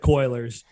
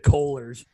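First: The first syllable sounds like 'coil'. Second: The first syllable sounds like 'coal'. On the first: The speaker calls it wrong. "not the Coilers" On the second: The speaker calls it right. "it's the Coilers, We're a coal town"

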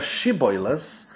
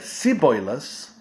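First: The word begins with an 'sh' sound. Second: The word begins with an 's' sound. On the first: "instead of" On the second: "it was very difficult for them to say the word, the letter sh, or the sound sh. When they would pronounce it, they would use the word s"

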